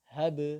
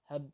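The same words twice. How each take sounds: First: The final b is released with a bounce. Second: The final b is released very faintly. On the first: The speaker calls it right. "dipatulkan saja" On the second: The speaker calls it wrong. "dikeluarkan tapi sangat kecil suaranya"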